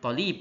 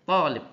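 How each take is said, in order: First: The first vowel is cut short. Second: The first vowel is held long. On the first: The speaker calls it wrong. "nggak boleh kamu bilang tolib" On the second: The speaker calls it right. "Yang betul adalah tolib"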